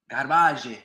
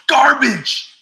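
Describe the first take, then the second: First: Mock French accent. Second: High, drawn-out holler; loud shout. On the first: Shown as a demonstration. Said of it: "But in my French accent". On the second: Acted. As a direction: belt it out at full volume. Shouting out a viewer's comment.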